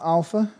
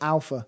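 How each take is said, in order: First: The first vowel is soft and loosely spoken. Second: The first vowel is a hard, clear A. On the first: The speaker calls it wrong. "sort of like an alpha, kind of like that" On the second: The speaker calls it right. "we could do a hard A"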